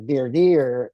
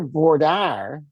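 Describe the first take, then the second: First: It is said with an East Coast pronunciation. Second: It is said with a Texas pronunciation. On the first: "is how it's pronounced in on the East Coast" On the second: "which is what we call it here"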